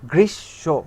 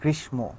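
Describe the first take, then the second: First: The sh is doubled and the m is silent. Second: The m sound is pronounced after the sh. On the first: The speaker calls it right. "এই গ্রীষের শকে আবার উচ্চারণ করব" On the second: The speaker calls it wrong. "আমরা কিন্তু বলি না"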